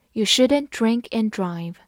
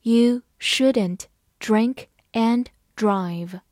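First: Said in the usual way. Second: Slow, word by word; measured teacher's model reading. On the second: Shown as a demonstration. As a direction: read slowly with pauses between words. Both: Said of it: "慢慢来读".

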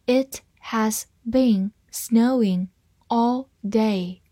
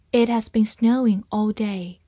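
First: Slow, one word at a time; slow reading. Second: Said in the usual way. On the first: Shown as a demonstration. Teacher reading the snow sentence for learners, slowly. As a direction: read slowly with pauses between words. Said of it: "好，慢慢来读".

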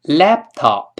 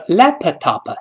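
First: Laptop with the p held silent, no puff of air; lost plosion. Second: Laptop with the p popped out fully; higher, louder wrong version of laptop; wrong, released p. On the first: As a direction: hold the lips shut on the p of laptop. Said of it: "再来一遍". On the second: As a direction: burst the p in laptop as a mistake. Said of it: "不能读成laptop". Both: Shown as a demonstration.

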